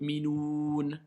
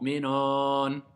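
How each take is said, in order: First: The last vowel is a closed 'oo' sound. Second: The last vowel is an open 'o' sound. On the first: The speaker calls it right. "c'est le mot minoun" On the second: The speaker calls it wrong. "Non, c'est le mot minoun"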